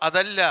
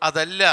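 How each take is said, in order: No difference in how they are said.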